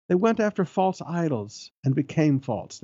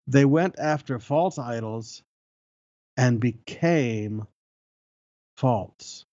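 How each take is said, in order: First: Said in the usual way. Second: Long pauses before and after "became"; slow, weighty rereading. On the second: Real, not acted. Preacher rereading an amazing verse, slow and weighty. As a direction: let "became" and then "false" land separately, slowly.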